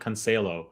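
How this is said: The name is pronounced with Spanish sounds. The speaker calls it wrong. "Spanish pronunciations for all these names"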